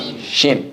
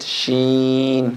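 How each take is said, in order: First: The middle vowel is short. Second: The middle vowel is long. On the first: The speaker calls it wrong. "Not shin" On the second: The speaker calls it right. "with a prolongation in the middle"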